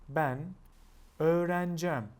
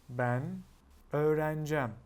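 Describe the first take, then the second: First: The verb is shortened, dropping several middle sounds. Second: The verb is shortened, dropping several middle sounds.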